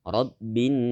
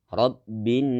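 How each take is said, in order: Both takes have the same delivery.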